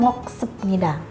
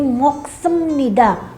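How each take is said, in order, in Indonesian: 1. Bunyi p ada sebelum 'nida'. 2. Bunyi m ada sebelum 'nida'. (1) "bukan moksepnida" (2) "Biar ketemu n jadinya m. Jadi moksemnida"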